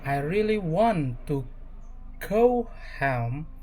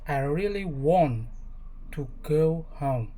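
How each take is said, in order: First: American English accent with a clear rolled R; relaxed American English accent. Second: Controlled British English accent. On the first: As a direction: say it the American way, R sounded. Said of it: "American English". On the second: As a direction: say it the British way, R dropped. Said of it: "and British English". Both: Shown as a demonstration.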